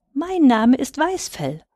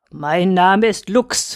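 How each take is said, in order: First: Higher, slow little-hare introduction; Purzel. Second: Slow, grim wolfhound introduction; Lux. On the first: Little hare answers the wolfhound, higher and formally polite. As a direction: present yourself politely in a lifted voice. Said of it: "sagte Purzel". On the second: Chained wolfhound introduces himself to his prey, slow and grim. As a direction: draw the name out with curt menace. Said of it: "knurrte Lux grimmig". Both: A narrator's reading.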